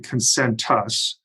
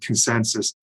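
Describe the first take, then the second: First: The last syllable starts with a t sound. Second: The last syllable starts with an s sound. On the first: The speaker calls it right. "It's actually consentus. There's a T" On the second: The speaker calls it wrong. "people uh, very often pronounce it consensus"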